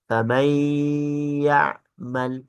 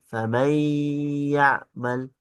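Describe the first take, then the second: The two takes are said the same way.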